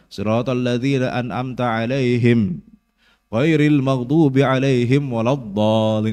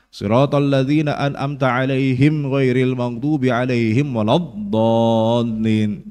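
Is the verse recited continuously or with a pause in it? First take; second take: paused; continuous. First: The verse is broken by a stop partway through. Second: The verse is recited in one unbroken stretch. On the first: The verse is split in the middle. The speaker calls it wrong. "banyak orang yang wakaf di situ ... Ini salah" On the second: The verse is kept whole as one unit. The speaker calls it right. "jangan dipisah, jangan dipotong ya. ... Sambung"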